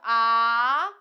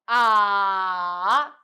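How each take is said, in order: First: The pitch rises from middle to high. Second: The pitch dips low, then rises. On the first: "three, five" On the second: "two, one, four"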